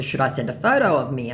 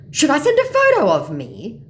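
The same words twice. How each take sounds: First: Said in the usual way. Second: High, loud scammer offer; eager mock scammer. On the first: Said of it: "So in response to". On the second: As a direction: offer it loudly in caricature.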